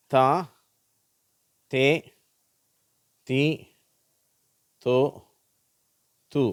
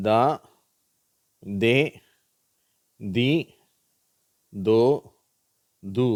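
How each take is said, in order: First: "தா, தே, தி, தோ, து" each with unvoiced th, separated by pauses; unvoiced TH syllables. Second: "தா, தே, தி, தோ, து" each with voiced dh, separated by pauses; voiced DH syllables. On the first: Teacher rereading for learners, "தா, தே, தி, தோ, து" unvoiced as th. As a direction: read "தா, தே, தி, தோ, து" as thaa, thay, thee, tho, thoo. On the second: Teacher rereading for learners, "தா, தே, தி, தோ, து" voiced as dh. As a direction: read "தா, தே, தி, தோ, து" as dhaa, dhay, dhee, dho, dhoo.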